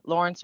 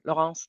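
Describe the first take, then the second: First: Lawrence said the English way, LOR-ence; English pronunciation. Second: Laurence said the French way, lo-RAHNS; French pronunciation. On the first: Guest introducing their own name to hosts, English pronunciation of Lawrence. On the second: Guest offering the other way to say their name, French pronunciation of Laurence. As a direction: say Laurence as a French name, nasal second vowel. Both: Shown as a demonstration. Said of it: "depending on how you wanna say it".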